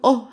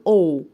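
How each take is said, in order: First: The vowel is an open 'ah' sound. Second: The vowel is a rounded 'oh' sound. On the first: The speaker calls it wrong. "مش هقول اه" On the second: The speaker calls it right. "هقول او"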